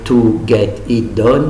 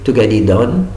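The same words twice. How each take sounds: First: The words are said separately, one by one. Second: The words are run together in one piece. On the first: The speaker calls it wrong. "pas dire" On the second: The speaker calls it right.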